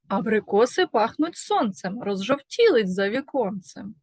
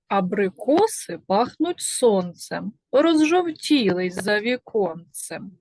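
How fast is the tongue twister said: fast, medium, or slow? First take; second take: medium; slow. First: It is spoken at a quicker pace. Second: It is spoken at a slow, ordinary pace.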